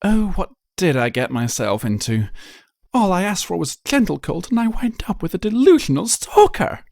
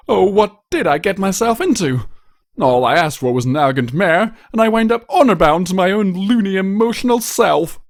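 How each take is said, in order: First: High, dramatic lament of a fussy unicorn; theatrical exasperated sigh of a fashionista; dismayed Rarity. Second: High, louder whiny lament of a pampered prince; self-pitying noble groan; exasperated prince. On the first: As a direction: wring your hooves over it. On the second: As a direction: bemoan your own foolish heart. Blue Blood laments his situation. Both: Acted.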